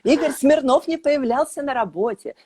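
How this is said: It is said with an indignant tone. The speaker is outraged by this. "С возмущением"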